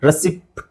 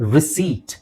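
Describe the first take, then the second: First: A p sound is heard before the t. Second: No p sound is heard before the t. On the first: The speaker calls it wrong. "ರೆಸಿಪ್ಟ್ ಅಂತ ಹೇಳ್ತಾರೆ" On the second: The speaker calls it right. "ರೆಸಿಪ್ಟ್ ಅಂತ ಹೇಳಂಗಿಲ್ಲ"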